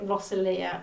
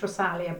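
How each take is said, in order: First: The name is said with soft English vowels. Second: The name is said with harder, clipped vowels. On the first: "in England we would say Rosalia, which makes it sound like some sort of apple pie pudding" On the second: "it's harder vowels and it's [name]"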